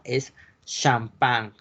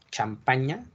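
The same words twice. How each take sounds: First: Champagne said slowly as shahm-PAHN, nasal end; French pronunciation. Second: Said in the usual way. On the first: Shown as a demonstration. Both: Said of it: "hasta me cuesta pronunciarla".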